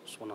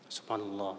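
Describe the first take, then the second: First: The word is repeated very fast. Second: The word is repeated at a measured pace. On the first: "ada orang zikirnya cepat banget" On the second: "Begitu, Pak. Tapi kalau bisa jangan terlalu cepat"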